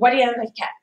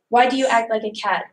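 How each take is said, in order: First: It is rushed and spoken very fast. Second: It is said at a clear, moderate pace. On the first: The speaker calls it wrong. "can quickly turn into" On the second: The speaker calls it right. "it is important to have the right pace"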